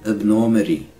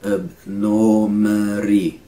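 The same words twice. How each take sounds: First: Said in the usual way. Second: "Abnormity" slow, held on a level note; syllable by syllable. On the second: Shown as a demonstration. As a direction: stretch each syllable of "Abnormity". Teacher slows word into syllables.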